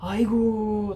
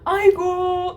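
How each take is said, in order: First: It is said in a dismayed, troubled tone. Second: It is said in a delighted, fond tone. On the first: Something bad has happened. "like oh my god, that's bad" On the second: Something is very cute. "like oh so cute"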